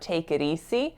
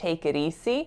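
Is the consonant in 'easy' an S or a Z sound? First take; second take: S; S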